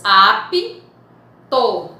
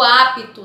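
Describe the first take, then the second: First: "apto" broken into "ap", pause, "to"; split into syllables. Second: Said in the usual way. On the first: Shown as a demonstration. Teacher showing two syllables, "apto" split by a pause. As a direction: say "apto" syllable by syllable with a clear gap. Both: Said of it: "nós temos duas sílabas".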